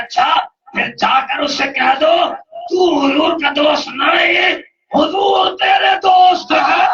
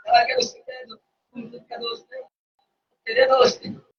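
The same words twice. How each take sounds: First: Slow climbing pulpit shout, near tears; rising preached shout. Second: Sudden near-whisper, much softer; the shouted line echoed back in a whisper; hushed repeat. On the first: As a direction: drive each phrase harder and higher until the last line peaks. Preacher quoting the Prophet's reply. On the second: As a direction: drop to a breathy hush after the big shout. Same words repeated after the shout. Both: Acted.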